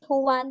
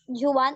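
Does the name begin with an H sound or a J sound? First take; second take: H sound; J sound. First: The name begins with an H sound. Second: The name begins with a J sound. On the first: The speaker calls it right. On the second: The speaker calls it wrong.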